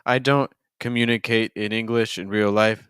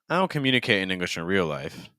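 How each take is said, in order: First: Many words in the sentence are stressed. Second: Only a few words in the sentence are stressed. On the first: The speaker calls it wrong. "so that's a lot of stresses" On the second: The speaker calls it right. "If you wanted to cut down some of those stresses, what it could end up sounding like would be something more like this"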